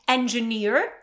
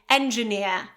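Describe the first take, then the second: First: The final R sound is clearly pronounced. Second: The final R sound is left silent. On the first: "the American uh, pronunciation would be with R" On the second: "the British variety without this R being pronounced"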